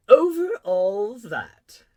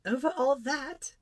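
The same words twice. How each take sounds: First: Loud, very slow, drawn-out royal statement; king answering. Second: Put-on high, slow child's question, rising; questioning little prince. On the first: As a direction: proclaim it grandly with falling tune. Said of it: "the king answered". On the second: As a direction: ask it back in amazement as a boy. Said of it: "asked the little prince". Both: A narrator's reading.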